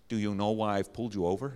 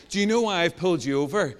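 First: Put-on low, awful American trooper accent; bad American accent. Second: Said in the usual way. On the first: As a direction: attempt a clumsy American accent. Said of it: "That's an awful American accent". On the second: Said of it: "I will not do that again".

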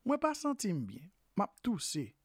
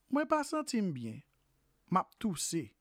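Both takes have the same delivery.

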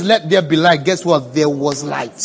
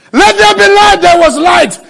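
First: Said in the usual way. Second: Loud, high shouted proclamation; full-force, high preacher's cry; shouted decree. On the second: Real, not acted. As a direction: thunder it out as a creation command. Preacher shouts creation command.

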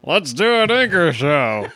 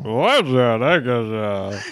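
First: Teeth clenched. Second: Jaw pushed forward; underbite. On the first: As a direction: talk through clenched teeth. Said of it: "with your teeth closed". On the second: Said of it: "if you push your jaw forward". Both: Shown as a demonstration.

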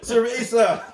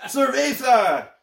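First: Mock Spanish accent. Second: High, slow, drawn-out Spanish "Cerveza"; mock Spanish accent. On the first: Mock Spanish words, laughing. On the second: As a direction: stretch "Cerveza" out in a hammed-up accent. Repeated louder, slower.

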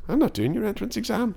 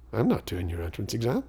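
First: NOT said much higher, a firm insistent fall; insistent repeat. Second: Said in the usual way. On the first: Retold or imitated. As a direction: spell out "not" high and final, like a boy who won't budge.

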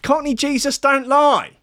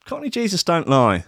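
First: "lie" held up high in a mock sermon voice; mock preaching. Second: Said in the usual way. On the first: Shown as a demonstration. Host quoting his lyric hero, high mock-solemn. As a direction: squeak it up like a solemn prophecy.

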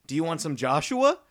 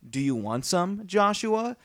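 First: "some Joshua" run together with no pause. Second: "Do you want some," then "Joshua?" rising; pause before Joshua. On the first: Retold or imitated. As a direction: say "Do you want some Joshua?" in one flat run. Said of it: "she says". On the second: Shown as a demonstration. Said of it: "instead of saying".

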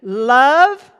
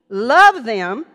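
First: LOVE rung out loud and rising; Love swelling up like a plea; emphatic love. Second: Love punched loud with a rise; stress on Love. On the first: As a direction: ring out the word Love. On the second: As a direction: hit Love hard, then them. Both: Acted. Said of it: "Let me go over it again".

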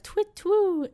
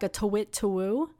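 First: Very high, sung owl call twit twoo; tawny owl call. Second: Said in the usual way. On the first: Shown as a demonstration. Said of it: "So they do, like". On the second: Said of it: "They do, like, a call".

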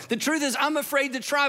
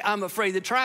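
First: "The truth is, I'm afraid to try" biraz yüksek ve kararlı; "try" kelimesine vurgu yaparak itiraf et; honest admission. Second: Said in the usual way. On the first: Shown as a demonstration. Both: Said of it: "but I'm not gonna say".

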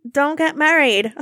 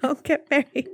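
First: Louder and slow, a hammed-up warning; mock warning. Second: Laughing as she repeats the joke warning. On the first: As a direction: lean on it like grave advice to the viewers. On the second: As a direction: break into a laugh on the line. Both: Real, not acted. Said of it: "I'm gonna give you advice".

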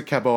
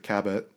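First: "Cabot" with a silent t; French pronunciation. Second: "Cabot" with the final t sounded; English pronunciation. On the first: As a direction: say Cabot as ka-BOH. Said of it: "I went to French immersion". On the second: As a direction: say Cabot as KAB-ut. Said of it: "most people pronounce it Cabot". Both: Shown as a demonstration.

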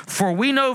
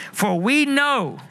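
First: Said in the usual way. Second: For we know drawn out slowly and pitched high; emphatic prompt. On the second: Shown as a demonstration. Preacher coaxing the congregation to respond, slow and emphatic. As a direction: stretch For we know slowly so the crowd joins in. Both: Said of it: "we what? We what?".

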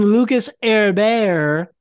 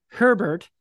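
First: "Herbert" said as "air-BEAR", silent H and T; "Herbert" without its H or final T, rhyming with bear; French-style Herbert. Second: Said in the usual way. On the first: Shown as a demonstration. Jokey name said French-style, then corrected.

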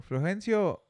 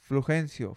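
First: Name called out high; mock roll call. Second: Said in the usual way. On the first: Storyteller calling a made-up name, mock roll call.

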